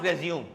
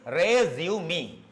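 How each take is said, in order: First: The word is said with fewer than three syllables. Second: The word is said with three syllables. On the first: The speaker calls it wrong. "It's not resume" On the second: The speaker calls it right. "Correct pronunciation is resume"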